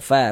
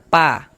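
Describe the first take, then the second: First: It starts with an f sound, breath flowing. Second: It starts with a p sound, no breath flow. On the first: The speaker calls it right. "terus ada nafas yang mengalir" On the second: The speaker calls it wrong. "jangan dibaca pa"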